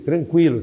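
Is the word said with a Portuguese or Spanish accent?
Portuguese. It is said with a Portuguese accent. It sounds like a provocation. "Se ele falar em português para você"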